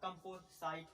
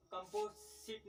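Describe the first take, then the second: First: कंपोसाइट said slowly as kam-po-sait, ending in sait; correct pronunciation. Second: कंपोजिट said as kampojit, with a j sound and a short i; wrong pronunciation. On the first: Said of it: "इसका शुद्ध क्या होगा". (कंपोसाइट का शुद्ध उच्चारण, धीरे) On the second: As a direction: say कंपोजिट the wrong way, ending in zit. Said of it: "कंपोजिट नहीं पढ़ेंगे". (कंपोजिट का गलत उच्चारण) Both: Shown as a demonstration.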